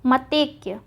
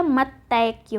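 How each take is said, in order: First: मतैक्य mistaken as ma-tek; wrong vowel. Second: मतैक्य drawn out on tai; correct ai vowel. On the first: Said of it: "मतैक नहीं होता". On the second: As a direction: slowly say मतैक्य as ma-taik-ya. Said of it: "ए की मात्रा लग जाएगी". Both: Shown as a demonstration.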